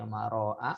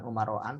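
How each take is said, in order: First: The word ends on a plain a vowel. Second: The word ends with an added n sound. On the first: The speaker calls it right. "tapi umara'a" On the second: The speaker calls it wrong. "bukan umara'an"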